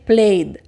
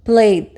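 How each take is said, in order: First: The word ends with a voiced d sound. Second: The word ends with a voiced d sound.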